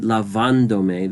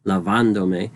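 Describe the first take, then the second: First: Lavándome with the second A stressed, la-VÁN-do-me. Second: Lavándome stressed on the second A, la-VÁN-do-me; lavándome with the accent on its second A, la-VÁN-do-me. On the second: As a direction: land clearly on VÁN in lavándome. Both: Shown as a demonstration. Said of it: "we hear that stress happening on the second A".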